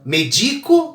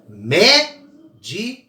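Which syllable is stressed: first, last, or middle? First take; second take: middle; first. First: The stress is on the middle syllable. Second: The stress is on the first syllable. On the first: It means the act of medicating. "virou outra palavra, né? Que é o ato de medicar" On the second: It means a doctor. "a mais forte é o mé"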